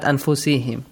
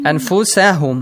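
First: The vowel after the s is i. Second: The vowel after the s is a. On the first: The speaker calls it wrong. "not anfusihim" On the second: The speaker calls it right. "Anfusahum, not anfusihim"

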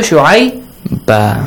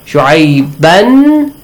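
First: The word ends with a long a. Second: The word ends with an n sound. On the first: The reader stops at this word. "shu'ayba ba with an alif" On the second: The reader continues without stopping. "shu'ayban is changed to"

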